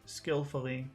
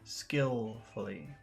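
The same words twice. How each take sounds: First: The word is said plainly without extra emphasis. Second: The word is said with strong pitch emphasis. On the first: "Regular skillfully" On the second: "Intonation skillfully"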